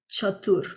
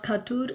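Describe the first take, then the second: First: The word begins with a ch sound. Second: The word begins with a hard k sound. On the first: The speaker calls it right. "it is Chatur" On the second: The speaker calls it wrong. "it's not Khatur"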